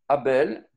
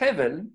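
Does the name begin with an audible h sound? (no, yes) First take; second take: no; yes. First: The name starts with a vowel, no h. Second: The name starts with an audible h sound. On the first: The speaker calls it wrong. "Abel, que l'on doit dire en fait Hevel" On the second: The speaker calls it right. "que l'on doit dire en fait Hevel"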